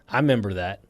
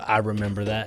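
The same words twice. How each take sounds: First: The first syllable of remember is dropped. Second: The first syllable of remember is kept.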